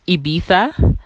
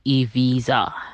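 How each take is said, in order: First: The ending does not sound like 'visa'. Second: The ending sounds like the word 'visa'. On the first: The speaker calls it wrong. "I used to pronounce it Ibiza, and then I found out that that's actually the wrong way" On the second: The speaker calls it right. "It's actually Ibiza, like Ibiza that you get, like a Schengen visa"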